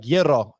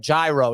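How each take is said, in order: First: "Gyro" said as YEE-ro; Greek-style gyro. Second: "Gyro" said as JAI-ro; hard English J and an "eye" vowel in "Gyro"; anglicised gyro. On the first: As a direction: open "Gyro" on a Y sound, the Greek way. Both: Retold or imitated. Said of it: "I know how to pronounce it".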